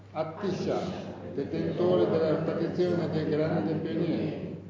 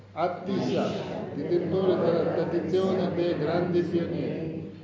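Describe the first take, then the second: The two takes are said the same way.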